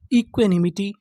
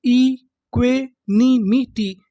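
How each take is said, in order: First: Said in the usual way. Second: "इक्वेनिमिटी" very slowly, broken into syllables; teacher's drawn-out breakdown of "इक्वेनिमिटी". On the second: Shown as a demonstration. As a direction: sound out "इक्वेनिमिटी" piece by piece, each syllable stretched. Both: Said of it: "तो पूरी meaning क्या बनी".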